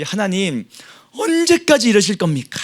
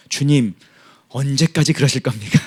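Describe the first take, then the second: First: 탄식. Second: Said in the usual way. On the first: Retold or imitated. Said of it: "라고 지금 고백하는 겁니다". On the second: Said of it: "하나님한테 뭐라는 겁니까".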